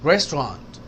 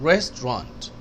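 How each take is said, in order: The two takes are said the same way.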